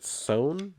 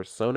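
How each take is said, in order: First: "Son" said as one syllable; one-syllable pronunciation. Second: "Sone" said in two syllables, so-NAY; two-syllable pronunciation. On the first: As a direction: say "Son" as a single drawn-out syllable. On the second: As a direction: end "Sone" on an "ay" sound. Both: Shown as a demonstration. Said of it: "not sure how it's pronounced".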